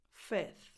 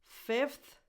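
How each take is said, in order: First: "fifth" said as "fith"; F dropped. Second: "Fifth" with both f and th sounded; full f-th cluster in "Fifth", voice lifted; F kept. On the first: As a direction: go straight from short i to th in "fifth". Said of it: "drop the F before the T H". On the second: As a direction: say "Fifth" as fif-th, pitched up. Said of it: "both pronunciations are correct". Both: Shown as a demonstration.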